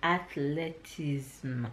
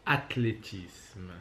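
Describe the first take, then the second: First: Athletism said slowly with English sounds; English-style attempt. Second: Athlétisme said slowly the French way; French pronunciation. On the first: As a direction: repeat Athletism slowly, anglicised. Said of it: "Say it". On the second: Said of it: "So the French word is". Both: Shown as a demonstration.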